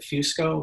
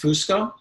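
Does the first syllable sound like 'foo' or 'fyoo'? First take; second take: fyoo; foo. First: The first syllable has a y-glide, like fusion. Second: The first syllable has a plain oo vowel. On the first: It is an Americanized version of the name. "American bastardization" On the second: It follows the family's original Italian pronunciation. "the traditional Italian pronunciation"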